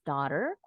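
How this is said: The final R is clearly pronounced. "The Americans pronounce this word as daughter"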